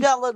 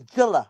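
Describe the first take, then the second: First: The name starts with an m sound. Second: The name starts directly with a j sound. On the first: The speaker calls it wrong. "It's not" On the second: The speaker calls it right. "It's Jilla"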